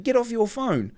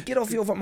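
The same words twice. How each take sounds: First: Put-on high Indian-accented command. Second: High, put-on Indian accent. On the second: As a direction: imitate an Indian attendant, pitched right up. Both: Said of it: "My mate can do wicked accents".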